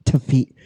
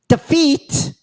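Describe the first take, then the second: First: Said in the usual way. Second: Defeat jumps much higher and rises at the end; mock emphatic. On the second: Shown as a demonstration. Mocking his own retelling, defeat flung high and rising. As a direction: shoot defeat way up with a rising lilt. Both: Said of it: "I said defeat".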